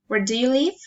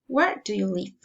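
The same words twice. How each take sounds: First: The voice rises at the end. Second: The voice falls at the end. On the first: "Friendly interest, um, pol politeness, reason intonation" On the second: "Following intonation"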